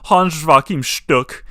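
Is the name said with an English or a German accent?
German. The name is said with a German accent.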